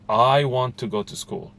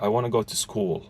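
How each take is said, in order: First: The word I is stretched and stressed. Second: The word school is stretched and stressed.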